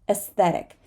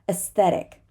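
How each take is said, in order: No difference in how they are said.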